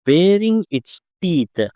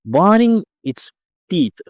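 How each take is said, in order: First: Said in the usual way. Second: "Baring" slipped out as "baning"; misread word. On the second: Real, not acted. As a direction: say "Baring" wrongly with an n-like middle, "baning". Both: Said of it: "sorry".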